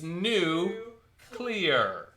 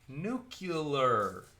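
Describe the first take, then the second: First: The word is said as 'new clear'. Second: The word is not said as 'new clear'. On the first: The speaker calls it right. "It's new clear" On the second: The speaker calls it wrong. "not nuclear. Everybody mispronounces that"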